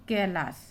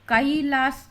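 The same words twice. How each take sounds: First: Said in the usual way. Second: कैलाश split as "ka-ee-laash", louder; over-separated vowel. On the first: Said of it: "कैलाश नहीं बोलते हैं उसको". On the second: Shown as a demonstration. Teacher showing learners what not to say, कैलाश as "ka-ee-laash". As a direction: wrongly pull कैलाश apart into "ka-ee-laash". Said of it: "तो कैलाश नहीं बोलते हैं".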